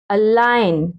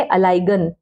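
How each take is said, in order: First: अलाइन with silent g; correct pronunciation. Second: अलाइगन with a hard g before n; children's misreading. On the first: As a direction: go straight to n in अलाइन. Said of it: "जी को हमने". (ग चुप रखकर अलाइन) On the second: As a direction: sound the g in अलाइगन. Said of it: "कुछ बच्चे पढ़ेंगे". (ग बोलकर अलाइगन) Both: Shown as a demonstration.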